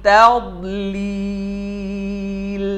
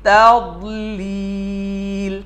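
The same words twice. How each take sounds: The two takes are said the same way.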